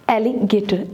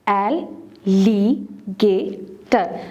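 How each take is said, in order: First: Said in the usual way. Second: एल, ली, गे, टर with a pause after each; teacher sounding out एल, ली, गे, टर; syllable by syllable. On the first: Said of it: "four syllable word है". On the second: Shown as a demonstration. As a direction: split it into four: एल — ली — गे — टर. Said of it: "separate the syllables".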